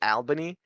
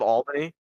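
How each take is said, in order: First: It uses the New York City pronunciation. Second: It uses the local upstate pronunciation. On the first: The speaker is from the city. The speaker calls it wrong. "They always say Albany" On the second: The speaker is from around here. The speaker calls it right. "instead of Albany"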